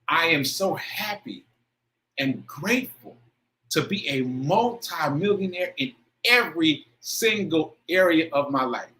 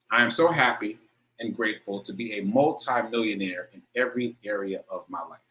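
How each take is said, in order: First: It is said with strong emotional feeling. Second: It is said plainly, without much feeling.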